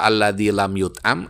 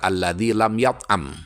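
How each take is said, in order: First: The verb is voiced with a passive vowel pattern. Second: The verb is voiced with an active vowel pattern. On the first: The baby has not been fed. "boleh dimajulkan" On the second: The baby has not eaten. "boleh pula dimabni maklumkan"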